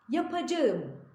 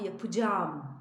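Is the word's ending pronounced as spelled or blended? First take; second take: as spelled; blended. First: Every syllable is pronounced just as spelled. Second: The ending merges into one lengthened vowel. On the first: The speaker calls it wrong. "yapacağım diye yazıyoruz" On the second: The speaker calls it right. "yapacağım diye okuyoruz"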